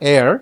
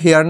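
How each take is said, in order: First: The word begins with no h sound. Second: The word begins with an h sound. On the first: The speaker calls it right. "এটা হচ্ছে এয়ার" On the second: The speaker calls it wrong. "এটা কিন্তু হেয়ার না"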